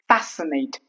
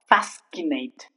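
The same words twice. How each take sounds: First: The C is silent after the S. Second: The C is sounded as K after the S. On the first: The speaker calls it right. "The C remains silent when C comes after the letter S" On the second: The speaker calls it wrong. "not fascinate"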